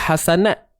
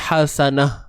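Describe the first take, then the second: First: The word ends with a t sound. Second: The word ends with an h sound. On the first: The speaker calls it wrong. "dia takkan jadi hasanat" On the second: The speaker calls it right. "Dia akan jadi hasanah"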